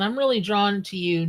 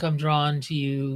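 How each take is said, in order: First: Said in the usual way. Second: Lightly mocked bot come-on, lower; imitating weird bot. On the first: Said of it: "not in that weird way". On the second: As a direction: recite it like a spam bot, pitched down. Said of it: "weird way that the bots are".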